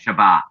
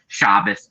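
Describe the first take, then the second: First: It is said in the Sephardic, Israeli pronunciation. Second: It is said in the Ashkenazi, European pronunciation.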